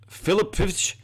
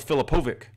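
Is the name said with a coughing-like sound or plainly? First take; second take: coughing; plain. First: The name has a harsh, coughing-like sound. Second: The name is said smoothly, without that harsh sound. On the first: The speaker calls it wrong. "It's like he's coughing" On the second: The speaker calls it right. "pronounced Michael Filipovic"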